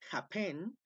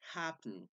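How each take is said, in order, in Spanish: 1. El acento está en la segunda sílaba. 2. El acento está en la primera sílaba. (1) "Si la pronunciación fueran happen, happen, entonces ahí sí se duplicaría la N, pero no es así" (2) "la última no está acentuada"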